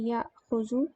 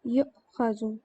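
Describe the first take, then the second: First: याखुजु said slowly with an open "ya" and a long "aa"; याखुजु as a slow teaching demo of the active verb; active form. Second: युखजु with a rounded "yu" and a short "kha"; युखजु said clearly as the passive contrast to the active verb; passive form. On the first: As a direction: spell out याखुजु slowly: yaa-khu-ju. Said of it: "ये normal मुदारे है". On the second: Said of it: "अगर इसका जो है passive होता". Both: Shown as a demonstration.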